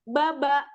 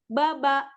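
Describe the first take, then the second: Both takes have the same delivery.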